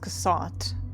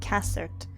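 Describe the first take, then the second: First: The name is said in a fancier way. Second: The name is said in a plainer way. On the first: The speaker calls it wrong. "it's not pronounced Cassat" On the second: The speaker calls it right. "It's pronounced Cassert. Which is not as fancy"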